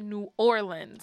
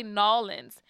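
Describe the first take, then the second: First: "New Orleans" with New and Orleans kept distinct; indignant correct pronunciation. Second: "Nolans" squashed into two syllables; mock correction. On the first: Retold or imitated. Local rebutting the woman's correction, emphatic full "New Orleans". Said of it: "how to say the city". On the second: Woman telling locals how to say their city, insistent "Nolans". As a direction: insist on "Nolans", the name run together. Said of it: "No, they say Nolans".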